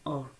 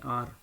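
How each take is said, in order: First: The letter is said with a rounded 'or' vowel. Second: The letter is said with an open 'aar' vowel. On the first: The speaker calls it right. "लेकिन ये आर नहीं है बल्कि और है" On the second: The speaker calls it wrong. "ये हम इसको आर पढ़ते हैं"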